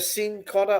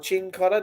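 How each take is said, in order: First: The name begins with an 's' sound. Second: The name begins with a 'ch' sound. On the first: "either Sin Cotter or Chin Cotter, depending where you come from" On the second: "depending where you come from"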